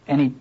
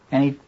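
The two takes are said the same way.

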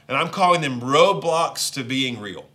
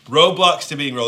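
First: Said in the usual way. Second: Roadblocks to being real said louder, stress on Roadblocks; emphatic repeat. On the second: Shown as a demonstration. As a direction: punch Roadblocks hard and let it fall.

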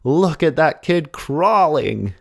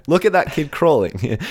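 First: Put-on high, drawn-out exclamation in an American accent. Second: Put-on high-pitched old-time exclamation; turn-of-the-century coach. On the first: Astonished coach spots the boy swimming, exclaimed in an American accent. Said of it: "I don't know why he has an American accent". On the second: Amazed coach at a turn-of-the-century carnival, high exclamation. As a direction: have a go at an old-fashioned coach calling out. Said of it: "What would someone at the turn of the century sound like?".

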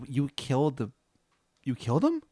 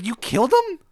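First: Halting, rising disbelief; falter, then lift into an incredulous question; stunned disbelief. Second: High, loud outraged question; shrieked disbelief. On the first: Linda learning you killed the Minotaur, stunned disbelief. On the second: Linda outraged that you killed him, shrieked disbelief. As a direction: screech it in horrified disbelief. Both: Acted.

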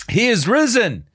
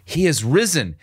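First: Joyful proclamation. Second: Said in the usual way. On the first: Real, not acted. Proclaiming after reading it.

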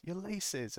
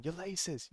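First: Even higher sing-song jeer; repeated playground taunt pitched way up; taunting call. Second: High sing-song taunt, pitched well up; teasing a fooled enemy with a high mocking call. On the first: Retold or imitated. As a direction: stretch it out to rub it in. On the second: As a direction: jeer it like a playground chant. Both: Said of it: "we kept yelling at him".

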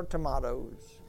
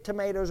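First: "tomatoes" said to-MAH-toes; alternate pronunciation. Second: Said in the usual way. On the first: Shown as a demonstration. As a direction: say "tomatoes" with a broad AH in the middle. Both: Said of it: "tomatoes or tomatoes".

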